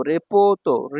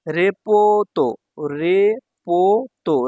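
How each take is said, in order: First: Said in the usual way. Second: রেপোতো slow with long vowels; syllable-by-syllable. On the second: Shown as a demonstration. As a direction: break রেপোতো into three drawn-out beats. Teacher sounds out new word.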